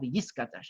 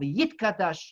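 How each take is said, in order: First: The letter is pronounced as an s sound. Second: The letter is pronounced as a t sound.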